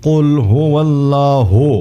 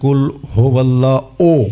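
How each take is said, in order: First: The phrase ends with a joined u sound. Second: The phrase ends with a separate o sound. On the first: The speaker calls it right. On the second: The speaker calls it wrong.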